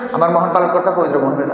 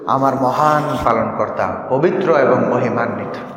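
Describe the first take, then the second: First: It is said quickly and hurriedly. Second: It is said slowly with loving feeling.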